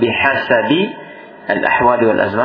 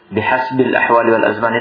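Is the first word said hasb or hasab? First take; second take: hasab; hasb. First: The word hasab is said with a middle vowel. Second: The word hasb is said without a middle vowel. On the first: It means in accordance with the conditions and times. "Itu bisa juga bihasabi al ahwali wal azman" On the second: It means depending on the conditions and times. "bihasbil ahwali wal azman itu artinya tergantung"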